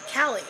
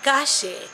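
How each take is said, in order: First: The word is said with an English L sound. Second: The word is said with a Spanish double-L sound. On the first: Non-Spanish speakers read it like an English name. The speaker calls it wrong. "they all kept saying Cali" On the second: This is how the Spanish word is really said. The speaker calls it right. "it's actually Gache"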